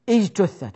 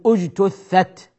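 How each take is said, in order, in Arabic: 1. تبدأ الكلمة بالكسرة i. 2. تبدأ الكلمة بالضمة u. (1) "وهذا خطأ" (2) "اجت بضم الأول وضم الثالث أيضا"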